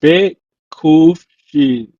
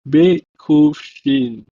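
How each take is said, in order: First: Bekufshin spelled out very slowly and loud, letter by letter. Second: Bekufshin repeated very slowly, each letter distinct; spelled letters. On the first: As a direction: sound out Bekufshin slowly for the class. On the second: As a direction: sound out Bekufshin slowly again. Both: Shown as a demonstration. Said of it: "consists of these letters".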